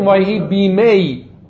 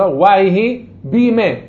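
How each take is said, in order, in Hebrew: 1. צליל ה-y הסופי נהגה בבירור. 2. צליל ה-y הסופי נבלע ושותק. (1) "לא אומרים" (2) "אלא"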